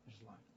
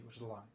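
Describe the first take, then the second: First: Much softer, nearly under the breath; a muttered afterthought; quiet echo. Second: Said in the usual way. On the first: Real, not acted. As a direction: drop the voice and repeat it to yourself.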